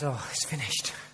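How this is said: It sounds defeated and dejected.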